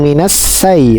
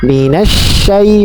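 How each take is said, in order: First: The second word starts with an 's' sound. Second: The second word starts with a 'sh' sound. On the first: The speaker calls it wrong. "bukan minas say" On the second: The speaker calls it right. "Sya dengan sifat tafasinya itu"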